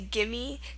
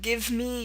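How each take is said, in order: First: The words are run together and reduced. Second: Both words are said fully and separately. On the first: "you say gimme" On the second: "instead of give me"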